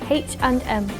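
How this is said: The letters are said with English letter names. "In the U K, nice and easy"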